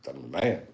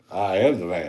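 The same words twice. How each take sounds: First: Said in the usual way. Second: Louder, insistent second go; emphatic retold boast. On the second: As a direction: repeat it with a push on "am", "I am the man". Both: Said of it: "I was like".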